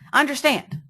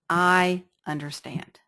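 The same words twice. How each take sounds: First: It is said forcefully with high energy. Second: It is said calmly with low energy. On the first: It mirrors an agitated speaker's energy. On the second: It mirrors a calm speaker's energy.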